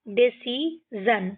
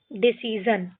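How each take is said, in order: First: Decision slowly split, deci, sion; syllable by syllable. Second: Said in the usual way. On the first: Shown as a demonstration. Teacher reads an example sentence, decision slowly broken up. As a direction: pause before the last syllable of decision. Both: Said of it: "इस तरीके से हमको ये सारे पढ़ने हैं".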